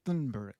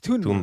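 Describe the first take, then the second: First: The name begins with a soft 'th' sound. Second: The name begins with a hard 't' sound. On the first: The speaker calls it wrong. "I always thought it was Thun Thunberg, something like because there's T H, right?" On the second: The speaker calls it right. "but it's"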